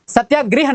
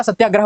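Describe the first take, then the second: First: सत्याग्रह ending in grih; mistaken i. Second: सत्याग्रह ending in grah; corrected a. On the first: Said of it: "नहीं होता". (सत्याग्रह, अंत में गृह) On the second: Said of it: "होता है". (सत्याग्रह, अंत में ग्रह) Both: Shown as a demonstration.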